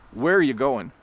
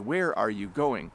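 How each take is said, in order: First: 'Are' joins 'where' and 'going' loses its g. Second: Every word is said slowly and in full. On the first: "Where the word "are" gets shortened" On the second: "if we said it very slowly and carefully"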